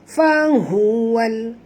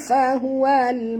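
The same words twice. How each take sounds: First: The 'hu' sound is deep and full. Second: The 'hu' sound is thin and light. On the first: The speaker calls it right. "hu dalam" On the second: The speaker calls it wrong. "bunyi macam betul tapi tak tepat"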